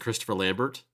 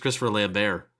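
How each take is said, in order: First: The T at the end of the surname is pronounced. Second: The T at the end of the surname is silent. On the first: The speaker calls it wrong. "his name isn't Christopher Lambert" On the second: The speaker calls it right. "The T is silent"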